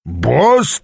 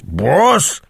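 First: Incredulous growl swooping upward; outraged growl. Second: Higher-pitched repeat, rising in disbelief; outraged growl. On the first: Аас echoing Брокхерст's word, growling in disbelief. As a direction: throw the word back in outrage. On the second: Аас repeating the offending word, outraged growl. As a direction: growl it out, swooping up indignantly. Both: A narrator's reading. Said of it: "прорычал Аас".

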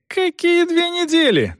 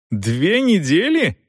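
First: Very high, indignant cry; outraged exclamation. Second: Slow, high, questioning disbelief; incredulous echo. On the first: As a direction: throw it back in a very high, outraged voice. Son explodes in protest. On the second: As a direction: echo it slowly, as if unbelievable. Son echoes father in disbelief. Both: A narrator's reading.

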